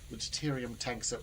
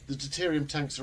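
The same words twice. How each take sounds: First: It is said in the speaker's natural voice. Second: It is said in a put-on character voice.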